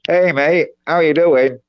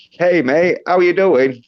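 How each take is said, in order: First: "Hey, mate" squeezed through a pinched nose, Aussie accent; held-nose Australian. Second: Australian "Hey, mate" pitched a bit higher; cheery Aussie greeting, lifted up a touch; Australian accent. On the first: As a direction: say the Aussie greeting while holding your nose. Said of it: "But then you hold your nose". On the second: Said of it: "do a bit of a high pitch". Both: Shown as a demonstration.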